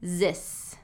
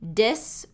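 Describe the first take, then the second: First: The word begins with a Z sound. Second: The word begins with a D sound. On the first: "I hear D or Z sound" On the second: "I hear D or Z sound"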